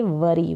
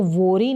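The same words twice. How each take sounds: First: वरी with a short a sound, like wuh-ree; correct pronunciation demo. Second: वोरी said with a long O, like vori; wrong pronunciation demo. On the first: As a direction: say वरी cleanly with a short vowel. (वरी को छोटे अ के साथ सही उच्चारण) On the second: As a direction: deliberately mispronounce वोरी as vori. (वोरी को लंबे ओ के साथ गलत उच्चारण) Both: Shown as a demonstration. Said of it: "इसको वोरी नहीं पढ़ेंगे".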